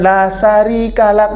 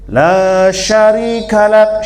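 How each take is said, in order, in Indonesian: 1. Bunyi pertama dari syarika adalah s yang tipis. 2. Bunyi pertama dari syarika adalah sh yang penuh. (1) "Jangan la syarika lak, jangan gitu. Itu sari namanya" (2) "harus besar simnya"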